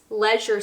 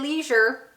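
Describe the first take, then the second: First: It is said in a British accent. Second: It is said in a Canadian accent. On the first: The speaker adapts to a British audience. "but I'm trying for you guys" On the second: This is how the speaker would normally say it. "which I would normally say leisure"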